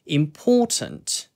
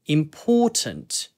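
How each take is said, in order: First: The t sound is clearly pronounced. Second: The t sound is clearly pronounced.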